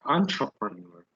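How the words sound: It is said with an exaggerated English accent.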